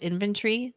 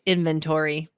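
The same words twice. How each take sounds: First: It uses the pronunciation heard from overseas hosts. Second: It uses the typical American pronunciation. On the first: This is how people outside America say it. "when I'm on a podcast overseas, it's always inventory, which is very cool sounding" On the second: This is how Americans say it. "when I talk to American, you know, um, hosts, it's inventory"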